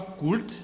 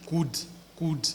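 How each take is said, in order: First: Could with a sounded L, "kult"; wrong pronunciation. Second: Could said "kud", L silent; correct pronunciation. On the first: Teacher showing students the mistake. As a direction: put an L into could. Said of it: "ne dites pas could". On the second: Teacher showing students the right form. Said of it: "mais dites". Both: Shown as a demonstration.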